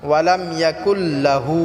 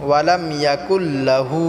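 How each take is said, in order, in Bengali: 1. lahu-তে la অক্ষরটি ছোট রাখা হয়। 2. lahu-তে la অক্ষরটি ছোট রাখা হয়।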